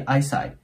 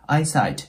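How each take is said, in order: First: The final t is nearly silent. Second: The final t is clearly released. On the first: "ほとんど聞こえないことも多いです" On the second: "チッて発音してもいいし"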